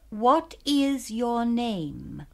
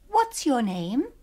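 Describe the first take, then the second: First: It is said slowly and carefully. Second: It is said fast, like everyday talk.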